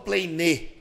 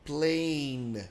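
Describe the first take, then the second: First: A vowel sound is added after the final n. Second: The word ends on the final n sound. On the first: The speaker calls it wrong. "Eu não falo plane" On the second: The speaker calls it right. "eu falo plane"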